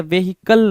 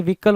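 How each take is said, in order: First: व्हीकल in three syllables, vay-HEE-kul, h sounded; wrong pronunciation. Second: व्हीकल in two syllables, VEE-kul, silent h; correct pronunciation. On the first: Retold or imitated. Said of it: "व्हीकल नहीं होता है". (गलत उच्चारण, "वेहिकल", ह के साथ) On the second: Shown as a demonstration. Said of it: "व्हीकल होता है". (सही उच्चारण, "वीकल", ह के बिना)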